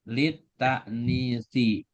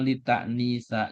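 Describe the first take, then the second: First: The word ends in an i vowel. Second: The word ends in an a vowel. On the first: The speaker calls it right. "Jadi yang betul litaknisi" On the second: The speaker calls it wrong. "atau litaknisa"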